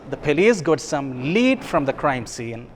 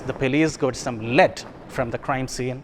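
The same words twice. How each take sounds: First: Lead is pronounced as the word meaning clue. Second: Lead is pronounced as the metal's name. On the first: The police found a clue. "it means something" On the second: The police found pieces of metal. "the meaning changes. In the second case, the sentence means that the police got some lead, metal"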